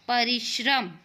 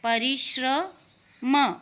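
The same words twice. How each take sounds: First: Said in the usual way. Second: परिश्रम drawn out slowly, every syllable apart: प-रि-श्र-म; slow syllable-split demo. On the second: Shown as a demonstration. Teacher sounding out a word slowly for young pupils. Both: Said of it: "और इसका उच्चारण होता है श्र".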